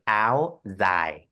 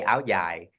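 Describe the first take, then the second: First: Ao dai said "ow zai", northern Vietnamese style; northern Vietnamese "ao dai" with a Z sound in dai; northern Vietnamese accent. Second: Ao dai said "ow yai", southern Vietnamese style; southern Vietnamese "ao dai" with a Y sound in dai; southern Vietnamese accent. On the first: Designer showing how the north says it, northern Vietnamese accent. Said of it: "in the north, the northern Vietnam, they would say". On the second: Designer showing how she says it, southern Vietnamese accent. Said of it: "I'm the south, I say". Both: Shown as a demonstration.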